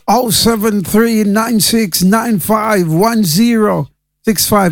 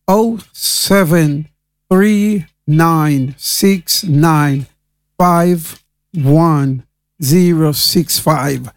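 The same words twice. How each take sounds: First: The number is said at a faster pace. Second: The number is said very slowly.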